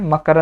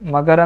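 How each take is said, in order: First: The middle consonant is an unvoiced k. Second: The middle consonant is a voiced g. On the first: "ಗದ ಜಾಗದಲ್ಲಿ ಕ ಬಂದಿದೆ" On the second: "ಮಗರ್ ಅಂದ್ರೂ ಕೂಡ ಒಂದೇ"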